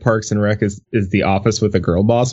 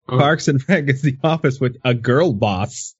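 First: It is read in the speaker's normal voice. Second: It is read in an imitated character voice.

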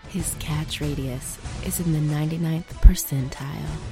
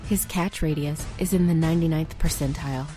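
First: It is said at a slower pace. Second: It is said at a normal pace.

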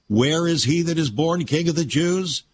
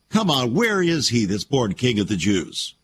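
First: It is asked as a sincere question. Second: It is asked in a mocking tone.

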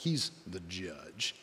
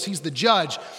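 First: It is said in a much deeper voice. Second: It is said in a normal voice.

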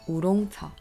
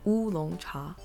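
First: It has an R sound and a G sound. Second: It starts with a W sound. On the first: "In Korean, we pronounce this as oolong cha. ... in Korean, there's an R sound and a G sound at the end" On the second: "In Chinese, we pronounce this as oolong cha. ... Chinese, which has a W sound at the beginning"

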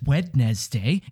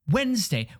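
First: Every letter is sounded, including the middle d. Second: It is said as two syllables, with no d. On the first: The speaker calls it wrong. "Nobody says Wednesday" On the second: The speaker calls it right. "It's Wednesday"

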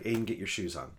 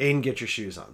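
First: The voice is calm and at normal volume. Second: The voice is raised and somewhat irritated. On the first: It is a first, patient request. "That's the first time" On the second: Patience is starting to run out. "So my voice rises"

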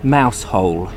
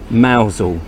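First: It is said as two separate words, mouse hole. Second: It is blended into one word, mowzel. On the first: The speaker calls it wrong. "call it mouse hole. But that's not how it's pronounced" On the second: The speaker calls it right. "We pronounce it mousel down here"

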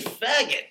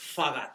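First: The first vowel sounds like the one in cat. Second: The first vowel sounds like the one in law. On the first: The speaker calls it wrong. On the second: The speaker calls it right.

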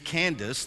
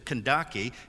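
First: It is said as two syllables ending 'dis'. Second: It is said as three syllables ending 'dah-kay'. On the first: This is how the written form is usually read. The speaker calls it wrong. "It reads Candace" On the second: This is the original title, not a name. The speaker calls it right. "The proper pronunciation is the Kandake"

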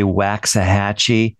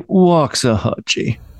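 First: The word is said in a plain, ordinary accent. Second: The word is said in a fancy, upper-class accent. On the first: This is how other people say it. "We don't say Waxahatchee" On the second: This is how a fancy Northeasterner says it. "we're kind of fancy and blue blood. ... We say Waxahatchee"

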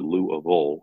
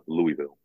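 First: It is said with the local pronunciation. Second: It is said with an outsider pronunciation. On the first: The speaker is really from the area. The speaker calls it right. "I pronounce it Louisville" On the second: The speaker is not from the area. The speaker calls it wrong. "and not Louisville"

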